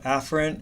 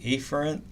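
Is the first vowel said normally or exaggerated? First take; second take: normally; exaggerated. First: The first vowel is said the normal way. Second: The first vowel is exaggerated like the letter A.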